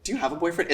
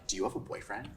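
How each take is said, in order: First: It sounds playful, accepting and genuinely curious. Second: It sounds loaded rather than genuinely curious. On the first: The asker is open and accepting of any answer. The speaker calls it right. "It's like genuine curiosity, play, acceptance" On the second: The asker has an agenda behind the question. The speaker calls it wrong. "Not like"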